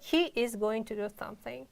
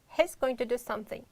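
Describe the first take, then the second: First: He is is said as two full words. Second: He is is contracted to he's. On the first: The speaker calls it wrong. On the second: The speaker calls it right.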